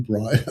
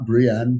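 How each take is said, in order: First: Put-on "Brian" said as BRY-an, like the boy's name; the wrong way: "Brian", BRY-an, not Brienne; mispronounced name. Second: "Brienne" said as bree-EN, stress on the second syllable; the right way: "Brienne", bree-EN; correct name. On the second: Shown as a demonstration. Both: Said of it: "he pronounced Brian".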